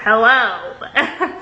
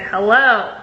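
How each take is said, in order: First: Clipped, unimpressed hello with a laugh; a cold, laughing hello; curt hello. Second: Said in the usual way. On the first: Shown as a demonstration. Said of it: "exactly how I would have said it". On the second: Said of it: "I said".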